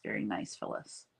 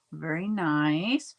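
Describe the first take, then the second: First: Breathy whispered repeat of the compliment. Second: Said in the usual way. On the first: Real, not acted. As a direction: say it again in a whisper, to yourself. Repeats compliment under her breath.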